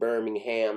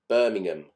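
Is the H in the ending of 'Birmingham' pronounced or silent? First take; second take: pronounced; silent. First: The H in the ending is pronounced. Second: The H in the ending is silent. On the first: This is the American way of saying the town. "If you live in America, you come from Birmingham, Alabama" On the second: This is the English way of saying the town. "in England, with towns that end in ham, we tend not to pronounce the H"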